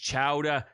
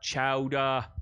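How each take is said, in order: First: The word is said without a Boston accent. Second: The word is said with a Boston accent. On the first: The speaker calls it right. "it's chowder" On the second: The speaker calls it wrong. "not chowder"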